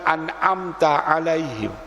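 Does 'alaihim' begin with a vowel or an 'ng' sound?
vowel. The word 'alaihim' begins with a plain vowel sound. "tidak bisa bilang"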